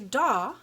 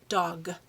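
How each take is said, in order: First: The final g sound is dropped. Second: The final g sound is pronounced. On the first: The speaker calls it wrong. "we don't say daw" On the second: The speaker calls it right. "Did you hear the sound at the end? ... We say dog"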